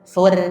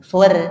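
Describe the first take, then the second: First: The r is thin and light, with a bright vowel. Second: The same.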